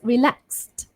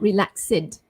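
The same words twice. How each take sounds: First: The ending adds no extra syllable. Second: The ending is said as an extra syllable. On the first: The speaker calls it right. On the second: The speaker calls it wrong.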